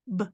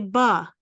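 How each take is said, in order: First: The b is said alone without a vowel. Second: The b is followed by an added vowel. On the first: The speaker calls it right. "Just say b" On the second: The speaker calls it wrong. "Don't say ba"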